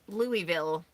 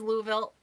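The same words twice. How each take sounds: First: The city name is said the outsider way. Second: The city name is said the local way. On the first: The speaker calls it wrong. "where I called it Louisville" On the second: The speaker calls it right. "But no, it's Louisville"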